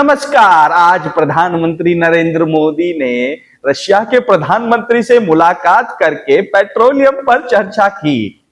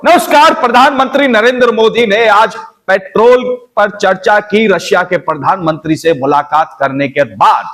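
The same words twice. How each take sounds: First: High, loud dramatic news anchor; a newsreader with a punchy, high-pitched rhythm; different newsreader. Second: Much higher, loud anchor voice; a different anchor, shrill-free but pitched way up; another newsreader. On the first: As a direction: announce it like a showy TV anchor. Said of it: "अलग-अलग तरीके से present करते हैं". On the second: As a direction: another TV newsreader with his own rhythm. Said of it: "अब वही कोई और". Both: Shown as a demonstration.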